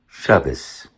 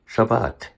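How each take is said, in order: First: It is said in a Yiddish pronunciation. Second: It is said in a Modern Hebrew pronunciation. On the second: "Modern Hebrew?"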